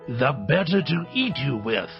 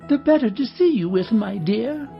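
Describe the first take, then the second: First: It is said in a deep, gruff wolf voice. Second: It is said in a high old lady voice.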